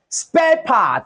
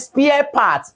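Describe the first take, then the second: First: The first vowel sounds like 'air'. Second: The first vowel sounds like 'ear'. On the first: The speaker calls it right. "This is called spare part" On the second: The speaker calls it wrong. "That's a wrong pronunciation"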